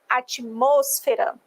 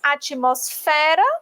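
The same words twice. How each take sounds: First: The stress falls on the syllable 'mos'. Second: The stress falls on the syllable 'fe'. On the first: This is the Spanish pronunciation. "esse mos vem para, a sílaba tônica vem antes" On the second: This is the Portuguese pronunciation. "Em português"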